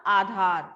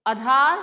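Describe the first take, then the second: First: आधार with a long first vowel and aspirated dh, falling end; correct form. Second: आधार said short and unaspirated, rising end; wrong spelling read out. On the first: Teacher gives class the correct आधार, falling finish. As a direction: say the right आधार as aa-dhaar. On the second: Teacher shows class the misspelled आधार, questioning rise. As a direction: sound out the faulty आधार as a-dar. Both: Shown as a demonstration. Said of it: "आजाद गलत है".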